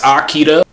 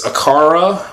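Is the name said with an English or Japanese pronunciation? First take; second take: Japanese; English. First: The name is said with a Japanese pronunciation. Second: The name is said with an English pronunciation.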